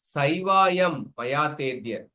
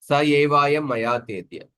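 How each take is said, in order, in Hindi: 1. पहले दो शब्द मिलकर एक अक्षर बन जाते हैं। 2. पहले दो शब्द अलग रहते हैं। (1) "लोप करेंगे तो ... पादपूर्ण नहीं होगा" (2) "अत्र सोचि लोपम विनैव पादः पूर्यते"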